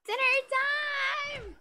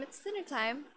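First: Very high, loud, long-drawn holler; hammed-up dinner call. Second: Said in the usual way. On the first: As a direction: belt it out, stretching each word.

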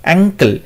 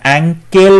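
First: অ্যাঙ্কেল said short, ending in a reduced "kl"; quick অ্যাঙ্কেল with the last vowel swallowed; correct pronunciation. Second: অ্যাঙ্কেল drawn out with a full "kel"; stretched spelling-style অ্যাঙ্কেল, second syllable like "kell"; wrong pronunciation. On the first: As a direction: say অ্যাঙ্কেল as ANG-kl, weak second syllable. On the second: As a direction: say অ্যাঙ্কেল slowly as ang-KEL, clear e in the last syllable. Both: Shown as a demonstration. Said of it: "নয়".

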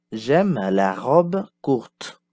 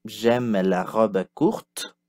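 First: Slow, clear model sentence; slow teacher model. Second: Slow, clear repeat for learners; slow teacher repeat. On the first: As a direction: lay it out slowly for learners. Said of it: "Passons au son O ouvert". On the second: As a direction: model it slowly again. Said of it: "Répétez". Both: Shown as a demonstration.

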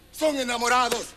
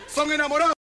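First: "Son enamorados" falling to a close; confirming statement. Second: Rising question on "enamorados". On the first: Comic sums up the young couple's status, confirming. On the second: Comic quizzes the young couple, questioning. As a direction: ask "Son enamorados", lifting the end. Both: Acted. Asks, then states it back.

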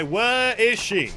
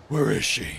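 First: Slow, stretched-out demand; drawn-out question. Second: Much lower, put-on voice; low-voiced question. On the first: Acted. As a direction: stretch every word of the question. Repeats game line two ways. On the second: Repeats game line in low voice.

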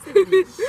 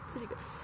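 First: Disgusted. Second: Whispered, breathless disgust. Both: Real, not acted.

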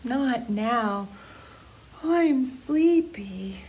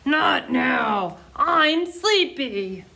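First: Slow, drowsy, trailing to a whisper; tired owl mumbling before her nap; yawning, sleepy. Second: Slow, grumbling lion voice, half asleep; a storybook lion grumbling at being woken; sleepy lion growl. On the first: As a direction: say it through a big yawn. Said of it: "Al yawned". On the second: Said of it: "Lion growled". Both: Acted.

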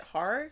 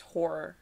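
First: HORROR said with an "ar" first vowel, like "har-er"; habitual pronunciation. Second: HORROR said with an "or" first vowel, like "hore-er"; newly learned pronunciation. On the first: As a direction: say HORROR to rhyme its start with "car". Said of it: "I've always pronounced it". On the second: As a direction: say HORROR to rhyme its start with "more". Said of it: "I just found out that it's pronounced". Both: Shown as a demonstration.

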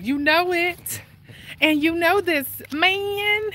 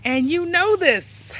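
First: High, slow drawn-out hype line; Chris Tucker. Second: High, slow retry of the catchphrase, louder; Chris Tucker. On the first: Walking vlogger doing Chris Tucker for viewers, high and slow. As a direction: stretch it high like a comic catchphrase. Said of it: "I can't say it like Chris Tucker". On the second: Vlogger retrying the Chris Tucker line, higher and slower. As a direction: push it higher and slower on the second try. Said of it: "but I try". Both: Retold or imitated.

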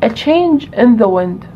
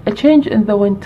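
First: Drawn out, each word weighed; slow and deliberate. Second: Said in the usual way. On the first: Shown as a demonstration. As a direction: stretch the English phrase very slowly.

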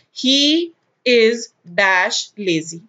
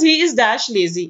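First: Very slow, word-by-word example reading; spaced-out, deliberate dictation. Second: Said in the usual way. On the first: Shown as a demonstration. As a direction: read it out slowly for students to follow. Dictating an example sentence to students.

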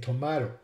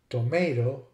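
First: Tomato as "to-MAH-to"; ah-vowel tomato. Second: First tomato as "to-MAY-to"; long-A tomato. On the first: Lecturer giving the other variant, tomato as to-MAH-to. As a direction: say tomato with an ah in the middle. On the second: Lecturer giving vowel examples, tomato with long ay. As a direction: say tomato with an ay in the middle. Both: Shown as a demonstration. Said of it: "Some other examples are".

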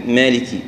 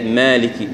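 First: مالكي with the alif bent toward a ya sound; wrong alif with ya. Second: مالكي with a clean open alif, no ya colour; correct open alif. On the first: Teacher shows the common error in مالكي, alif leaning to ya. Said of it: "كأنها ياء". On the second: Teacher corrects مالكي to a pure open alif. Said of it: "هي لا". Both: Shown as a demonstration.

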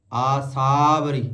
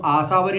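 First: ਆਸਾਵਰੀ slow, aa then long saavri. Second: ਆਸਾਵਰੀ quick, aasaa apart from varee; aasaa-varee split. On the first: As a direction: draw out saa and join it to vri in ਆਸਾਵਰੀ. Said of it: "ਆਸਾ ਅਲੱਗ ਨਹੀਂ ਕਰਨਾ". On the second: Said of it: "ਇਹਨੂੰ ਆਸਾਵਰੀ ਨਹੀਂ ਕਹਿਣਾ". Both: Shown as a demonstration.

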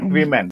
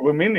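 First: "women" as wi-MEN, full E in the second syllable; wrong pronunciation. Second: "women" as WIM-in, short second vowel; accepted pronunciation. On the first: Trainer warns against this plural, wrong pronunciation. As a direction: say "women" ending in a clear MEN. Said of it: "but not women". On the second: Trainer offers teachers an allowed plural, accepted pronunciation. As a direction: say "women" with a short I in both syllables. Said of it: "women you can use". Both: Shown as a demonstration.

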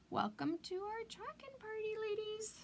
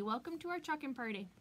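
First: High, lilting party-host greeting; playful high-pitched hostess call; singsong welcome. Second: Said in the usual way. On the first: Acted. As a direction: sing the welcome up high to the ladies. Welcoming arriving viewers.

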